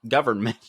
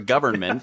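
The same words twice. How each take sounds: First: The word is clipped, with the middle sounds dropped. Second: The word is said in full, every syllable clear. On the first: "now I can't even say it right" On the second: "for you educated types"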